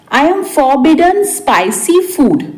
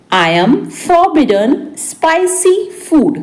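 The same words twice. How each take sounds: First: Said in the usual way. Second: Deliberate, raised teaching voice; word by word for learners; spaced-out repeat. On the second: Shown as a demonstration. (रुक-रुककर, शब्द-दर-शब्द)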